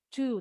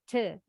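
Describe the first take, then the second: First: The word has a full 'oo' vowel. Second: The word has a short reduced vowel. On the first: The word stands alone, not in a sentence. "Kalau to berdiri sendiri nggak dalam kalimat nih, bacanya betul to" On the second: The word is inside a sentence. "Tapi kalau sudah dalam kalimat, bunyinya te"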